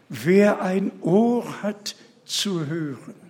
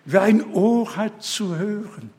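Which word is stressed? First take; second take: Ohr; ein. First: No special stress falls on the word ein. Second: The word ein carries the main stress. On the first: Anyone able to hear should listen. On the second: A single particular ear is meant, not two.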